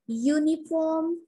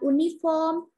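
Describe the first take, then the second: First: The word begins with a 'y' sound. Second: The word begins with a plain vowel sound. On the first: The speaker calls it right. "Jadi awalannya itu huruf Y" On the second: The speaker calls it wrong. "bukan uniform"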